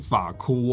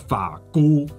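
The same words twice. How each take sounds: First: The second syllable begins with an aspirated k sound. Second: The second syllable begins with an unaspirated g sound. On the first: The speaker calls it wrong. "不是法菇哦" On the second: The speaker calls it right. "它应该叫法菇。哥乌菇，香菇的菇"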